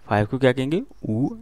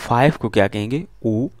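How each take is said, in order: No difference in how they are said.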